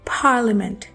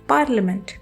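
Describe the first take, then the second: First: The first p has a puff of air. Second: The first p has no puff of air. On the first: The speaker calls it right. "Puff of air के साथ बोलना है" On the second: The speaker calls it wrong. "पी की sound को उर्दू के पे की तरह"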